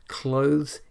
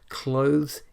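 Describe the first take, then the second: First: The word is said with one syllable. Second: The word is said with one syllable.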